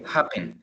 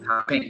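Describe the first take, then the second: First: The stress is on the first syllable. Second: The stress is on the last syllable. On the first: The speaker calls it right. "El acento lo tiene al inicio" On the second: The speaker calls it wrong. "No es happen"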